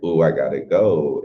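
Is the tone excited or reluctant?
excited. It is said in an excited, eager tone.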